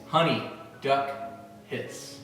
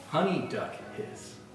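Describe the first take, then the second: First: It is said at a slower pace. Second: It is said at a quicker pace.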